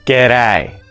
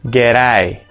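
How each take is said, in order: The two takes are said the same way.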